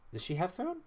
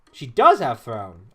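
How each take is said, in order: First: Said in the usual way. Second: Loud, drawn-out DOES; stress on DOES. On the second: Real, not acted. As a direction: confirm it by punching the word does. Confirms it with emphatic does.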